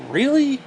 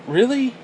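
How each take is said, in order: First: Even higher, falling disbelief; scoffing disbelief; incredulous. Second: High disbelieving really; sharp disbelief; incredulous. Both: Real, not acted. Incredulous at dating profiles.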